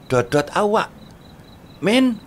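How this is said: There is a pause between awak and Min. The horn sound ends before the friend is called by name. The speaker calls it right. "Kudune dodot awak"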